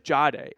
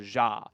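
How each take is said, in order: First: The name begins with a sound like 'Jade'. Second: The name begins with a short 'Ja' sound. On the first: This is the old pronunciation of the name. "it was Jade in college" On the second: This is the new pronunciation of the name. "now it's like a Ja"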